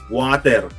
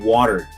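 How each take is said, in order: First: The middle consonant is a hard T. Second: The middle consonant is a soft D sound. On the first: "instead of like water" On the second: "nagiging soft D yung sound"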